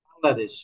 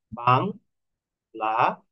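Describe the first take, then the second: First: Said in the usual way. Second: "Bangladesh" split into three slow, separate syllables. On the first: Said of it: "তিনটা স্টেপে আমি এখানে". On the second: Shown as a demonstration. Teacher showing the steps in pronouncing "Bangladesh", slowly syllable by syllable. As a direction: break "Bangladesh" into বাং, লা, দেশ with gaps. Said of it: "আমাকে কিভাবে উচ্চারণ করতে হচ্ছে".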